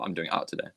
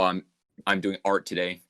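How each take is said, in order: First: It is fast with a weak R sound. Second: It is careful with a strong R sound. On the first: It is casual talk among friends. "when I'm talking to my friends, we speak so fast" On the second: It is careful talk so others understand. "sometimes I do pronounce my R's really hard"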